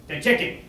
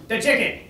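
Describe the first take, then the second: No difference in how they are said.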